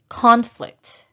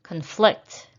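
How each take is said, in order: First: Conflict with a high, loud CON; stress on first syllable. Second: Conflict with a weak cun, stressed FLICT; stress on second syllable. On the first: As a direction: punch the start of Conflict, as a noun. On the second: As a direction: lean on the end of Conflict, as a verb. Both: Shown as a demonstration. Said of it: "practice shifting the stress".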